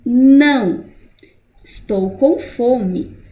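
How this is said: It has a pause after the first word. The speaker says no, then says they are hungry. "primeiro eu nego, não. Depois eu dou uma pausa"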